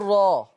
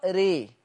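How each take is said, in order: First: The vowel is fully open, like a. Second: The vowel is fully raised toward e. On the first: "لو هفتح الراء هقول راء" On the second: "ولو أنا هعمل إمالة كبرى ري"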